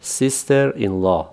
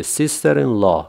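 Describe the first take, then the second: First: Sister in law آهسته برای تکرار؛ sister in law را کشیده بگو; slow model phrase. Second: Sister in law کشیده و شمرده؛ sister in law آهسته، کلمه به کلمه; slow model phrase. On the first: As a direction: sister in law شمرده و آرام. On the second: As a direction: sister in law را آرام تلفظ کن. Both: Shown as a demonstration. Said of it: "با من تکرار کنید".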